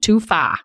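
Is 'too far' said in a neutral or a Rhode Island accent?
Rhode Island. Said in a local Rhode Island accent.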